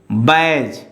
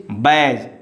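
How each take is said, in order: The two takes are said the same way.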